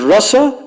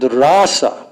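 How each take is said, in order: First: The first vowel is short. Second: The first vowel is long. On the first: It means the mellow of devotion. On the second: It means the dance.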